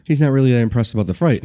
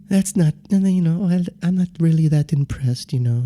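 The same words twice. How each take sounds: First: Said in the usual way. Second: Put-on meek, unhurried voice; Joe Haas. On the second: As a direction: imitate a mild man politely unimpressed. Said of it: "very quiet and passive in the way he talks".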